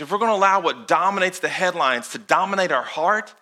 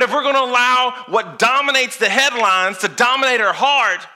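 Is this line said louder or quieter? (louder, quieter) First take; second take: quieter; louder. First: The line is said at a quieter volume. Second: The line is said at a louder volume.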